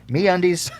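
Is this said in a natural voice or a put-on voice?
natural. It is said in a plain, natural voice.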